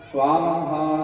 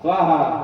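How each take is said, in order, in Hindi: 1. यह शब्द खींचकर बोला गया है, फिर विराम है। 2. यह शब्द तेज़ी से एक साथ बोला गया है। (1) "स्वा में उठाना है और हा में छोड़ना है। विराम होना।" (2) "ऐसा नहीं।"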